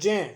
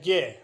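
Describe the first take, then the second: First: It begins with a j sound. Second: It begins with a g sound. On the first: This pronunciation is rarely used today. The speaker calls it wrong. "ये उच्चारण आजकल सामान्यतः use में नहीं होता है" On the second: This is the usual pronunciation today. The speaker calls it right. "इसका आजकल उच्चारण जो हो इस तरह से होता है गे"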